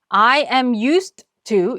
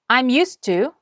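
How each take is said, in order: First: It is said slowly, each word separated. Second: It is said quickly with the d barely heard. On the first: "또박또박 발음하느라고 I am used to 이렇게 끊어서 갔잖아요" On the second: "빠르게 말할 때는"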